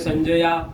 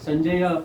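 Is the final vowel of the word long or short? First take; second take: long; short. First: The final vowel is lengthened. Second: The final vowel is short. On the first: The speaker calls it wrong. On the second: The speaker calls it right.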